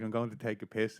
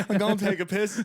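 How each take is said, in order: First: Said in the usual way. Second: High, loud mock excuse through laughter; laughing punchline. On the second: Teller quoting his friend's escape excuse, laughing punchline. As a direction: blurt the excuse, cracking up.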